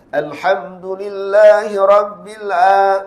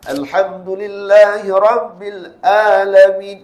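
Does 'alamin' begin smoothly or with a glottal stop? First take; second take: smoothly; glottal stop. First: The vowel of 'alamin' flows out smoothly with breath. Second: The vowel of 'alamin' starts with a sharp glottal stop. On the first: "Itu mat" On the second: "Itu hamzah"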